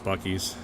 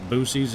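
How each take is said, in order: First: The first syllable sounds like 'buck' with a k. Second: The first syllable sounds like 'boo' without a k. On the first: The speaker calls it right. "No, I know it's Buc-ee's" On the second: The speaker calls it wrong. "I know it's not pronounced Boosies, but it's just funny to say it that way"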